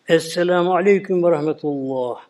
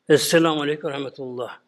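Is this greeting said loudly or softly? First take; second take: loudly; softly. First: The greeting is said somewhat louder. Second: The greeting is said more quietly. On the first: "ilki biraz daha sesli olacak" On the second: "ikinci daha kısık sesini kısacak"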